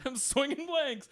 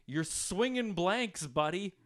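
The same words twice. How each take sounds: First: Higher, slow, laughing as he quotes it; mock the heckler's line through laughter. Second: Heckler voice. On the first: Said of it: "Yeah, I'm like". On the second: Retold or imitated. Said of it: "And he goes".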